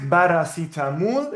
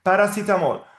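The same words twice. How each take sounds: First: Paracetamol as "barasitamul", B and oo; as written, with B. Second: Paracetamol with initial P and final -mol; B read as P. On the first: Teacher showing student the spelling, paracetamol as "barasitamul". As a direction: start paracetamol with B and end it in -mool. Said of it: "you write paracetamol". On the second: Teacher confirming the reading for student, Paracetamol with P and O. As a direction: start Paracetamol with P, end it with O. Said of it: "We have the B pronounced P". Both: Shown as a demonstration.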